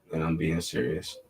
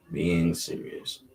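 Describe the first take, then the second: First: Said in the usual way. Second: "Being serious" dragged out slowly, word by word; slow repeat. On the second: Shown as a demonstration. Telling his viewers he means it, slowly and deliberately.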